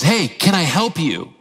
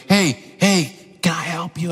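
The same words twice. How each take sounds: First: Lightly voiced child, slow and clear; clearly repeated offer. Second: Lightly imitated child, muffled under the noise; drowned-out child. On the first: Son repeats his offer to dad, slowly and clearly. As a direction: imitate a kid patiently repeating himself. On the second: Son calls to dad over the leaf blower, half drowned out. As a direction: mimic a kid half-lost under machine noise.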